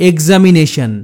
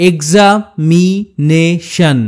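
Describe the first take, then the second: First: Said in the usual way. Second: "examination" very slowly, এক্সা, মি, নে, শন; slow sounding-out of "examination" with a pause after each part; split into syllables. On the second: Shown as a demonstration. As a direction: break "examination" into spaced chunks. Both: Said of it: "তিনটির বেশি syllable থাকে".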